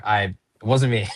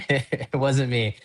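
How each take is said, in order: First: Said in the usual way. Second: Slow, laughing through the words; can't keep a straight face denying it; giggling, unconvincing denial. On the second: Retold or imitated.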